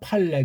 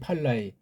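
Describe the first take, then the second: First: The final vowel is one single sound, 'le'. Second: The final vowel is two sounds, 'la-i'. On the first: The speaker calls it right. "그게 정상이라는 거지" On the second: The speaker calls it wrong. "팔라이 팔라이 그런 식으로 하잖아요"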